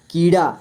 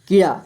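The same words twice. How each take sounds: First: कीड़ा with a long "ee"; long-vowel reading. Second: कीड़ा with a quick short "i"; short-vowel wrong reading. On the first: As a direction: draw out the "kee" of कीड़ा. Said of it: "बड़ी ई है". (कीड़ा में बड़ी ई की आवाज़) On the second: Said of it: "कीड़ा नहीं". (कीड़ा में छोटी इ की आवाज़) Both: Shown as a demonstration.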